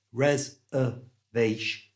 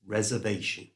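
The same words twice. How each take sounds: First: Res-er-vation broken into slow parts; syllable by syllable. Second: Reservation run together with schwas; smooth reservation. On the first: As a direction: spell out res-er-vation with schwas. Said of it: "correctly pronounced is res-er-vation". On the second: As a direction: say reservation at natural speed. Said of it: "correctly pronounced". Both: Shown as a demonstration.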